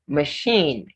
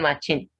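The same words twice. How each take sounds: First: The middle consonant is an sh sound. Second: The middle consonant is a ch sound. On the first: The speaker calls it right. "Say it, machine" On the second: The speaker calls it wrong. "It's not machine"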